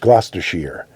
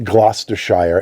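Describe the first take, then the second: First: The last syllable sounds like 'sheer'. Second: The last syllable sounds like 'shire'. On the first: The speaker calls it right. "it's Gloucestershire. It's always sheer" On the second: The speaker calls it wrong. "it's not Gloucestershire ... It's never Shire"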